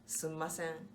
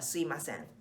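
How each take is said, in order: First: The mi syllable is dropped, leaving three syllables. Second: The mi sound becomes a plain i sound. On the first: It is a dialect form. "How do we say it in Osaka?" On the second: It is a faster, lazier casual form. "me becomes i"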